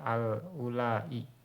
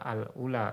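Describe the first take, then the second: First: The word ends with a lengthened vowel and glottal stop. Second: The word ends in a short plain vowel. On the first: "yang pakai hamzah" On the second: "Pakai alif"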